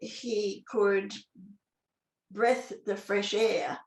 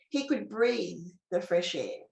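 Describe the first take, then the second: First: The vowel in breathe is short, as in breath. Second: The vowel in breathe is long, as in breeze. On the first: The speaker calls it wrong. "if it doesn't make sense to say" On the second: The speaker calls it right. "another way to say that word that would make sense and sound right"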